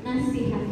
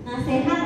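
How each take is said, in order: First: The middle vowel sounds like 'i'. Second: The middle vowel sounds like 'e'. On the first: The speaker calls it right. "Nasihat yang baku ya Bapak dan Ibu" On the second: The speaker calls it wrong. "Nasehat atau nasihat kita yang baku?"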